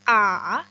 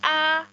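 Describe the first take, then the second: First: It is said with the third tone, dipping. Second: It is said with the first tone, high level. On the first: "yang ketiga a" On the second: "yang pertama ini kita sebut sebagai a"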